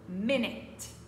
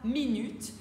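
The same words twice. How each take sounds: First: It is pronounced the English way. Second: It is pronounced the French way. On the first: The speaker calls it right. "mais plutôt minute" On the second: The speaker calls it wrong. "on ne dira pas minute"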